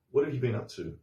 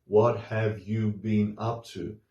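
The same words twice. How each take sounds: First: "What have you been up to?" run together, syllables reduced; relaxed native rhythm; connected speech. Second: "What have you been up to?" said slowly, every syllable clear; careful textbook reading; full form. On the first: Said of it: "we don't hear every syllable". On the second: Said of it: "It's more like". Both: Shown as a demonstration.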